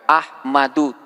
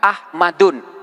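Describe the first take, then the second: First: The word ends on a vowel without n. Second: The word ends with an added n sound. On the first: The speaker calls it right. "Kita hanya boleh membaca Ahmadu tanpa tanwin" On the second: The speaker calls it wrong. "Tidak boleh kita membaca Ahmadun dengan tanwin"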